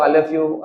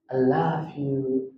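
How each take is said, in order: First: Said in the usual way. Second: Drawn-out, softer "I love you", each word lingering; slow tender love you. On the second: Shown as a demonstration. Old husband answering his wife, slow and tender. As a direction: breathe it out slowly, lovingly. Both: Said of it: "agak beda gitu bilangnya".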